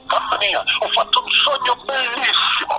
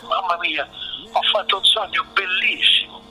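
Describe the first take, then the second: First: The voice sounds panicked and terrified. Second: The voice sounds soft and soothing. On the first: The speaker calls it wrong. "il tono della voce di quello che c'ha il terrore" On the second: The speaker calls it right. "lo farò con una voce suadente"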